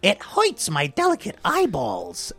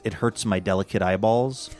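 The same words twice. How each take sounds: First: It is said in an exaggerated put-on voice. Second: It is said in a plain, normal voice.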